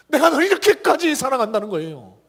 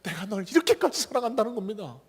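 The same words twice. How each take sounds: First: 내가 punched, louder and higher; 힘주어 외치듯; emphatic. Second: Said in the usual way. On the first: Shown as a demonstration. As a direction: proclaim 내가 널 이렇게까지 사랑한다는 거예요 with force. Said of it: "웅변하고 있는 게". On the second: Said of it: "웅변하고 있는 게 뭘까요".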